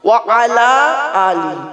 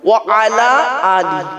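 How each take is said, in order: First: Three separate words with a clear final i. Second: The same.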